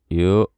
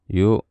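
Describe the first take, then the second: The two takes are said the same way.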